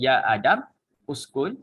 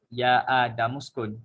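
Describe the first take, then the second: First: Uskun starts separately with its own vowel. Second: Adam runs straight into skun without a break.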